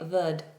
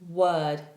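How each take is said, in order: First: It begins with a V sound, teeth on lip. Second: It begins with a W sound, lips rounded. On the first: The speaker calls it wrong. "they were doing this V sound. This is wrong" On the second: The speaker calls it right. "Word starts with a W, therefore it is rounded off"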